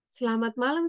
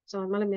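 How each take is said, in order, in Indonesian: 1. Diucapkan dengan nada lembut. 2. Diucapkan dengan nada merajuk. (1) "diksi yang dipilihnya lembut dan cara menyampaikannya juga lembut" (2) "sambil cemberut"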